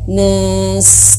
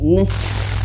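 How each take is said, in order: First: The vowel is drawn out long. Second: The vowel is short and direct. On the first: The speaker calls it wrong. "jangan panjang nas" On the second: The speaker calls it right. "tapi nas langsung"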